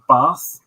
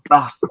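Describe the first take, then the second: First: The vowel in bath is long. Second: The vowel in bath is short. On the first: This is how the speaker talked before moving north. "instead of bath" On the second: This is how the speaker talks after years in Manchester. "the vowels have shrunk, so it's like bath"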